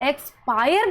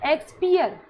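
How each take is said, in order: First: The ending sounds like 'pire'. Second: The ending sounds like 'peer'. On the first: The speaker calls it right. "इसको एक्सपायर बोलना है" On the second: The speaker calls it wrong. "अब कई बच्चे इसको क्या बोलते हैं, एक्सपियर, तो इसको एक्सपियर नहीं बोलना"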